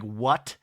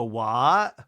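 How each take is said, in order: First: Said in the usual way. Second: "What" with no final T; dropped T. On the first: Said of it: "any hard tea". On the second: Retold or imitated. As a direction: imitate her open-ended "wha" for "What". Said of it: "doesn't have time to pronounce the T's".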